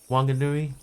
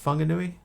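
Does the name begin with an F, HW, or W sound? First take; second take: W; F. First: The name begins with a plain W sound. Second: The name begins with an F sound. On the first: This is the older way of saying it. "It used to be just with a W" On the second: This is the currently recommended way of saying it. "now they're saying it should be an F"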